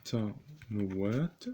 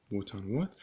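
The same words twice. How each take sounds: First: بوتانوات stretched out slowly; slow dictation. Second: Said in the usual way. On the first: Shown as a demonstration. Teacher dictating to students, بوتانوات drawn out slowly.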